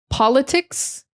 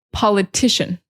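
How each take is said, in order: First: Politics, higher pitch rising on POL; POL-itics, rising; stress on POL. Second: Politician. with the second syllable stressed; po-LI-tician. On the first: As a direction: lift the first syllable of Politics,. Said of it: "emphasis is on the first syllable". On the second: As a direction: hit the LI in politician. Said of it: "it's on the second syllable". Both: Shown as a demonstration.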